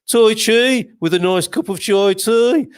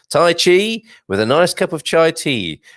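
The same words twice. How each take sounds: First: It is said in a Birmingham (Brummie) accent. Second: It is said in the speaker's ordinary accent.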